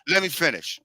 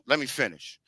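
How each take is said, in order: First: Said in the usual way. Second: Softer, lower, firm: let me finish; quiet firm repeat to an interrupter; quieter firm insistence. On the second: Real, not acted. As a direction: drop the voice but hold the floor.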